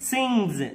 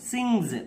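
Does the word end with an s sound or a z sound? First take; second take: z sound; z sound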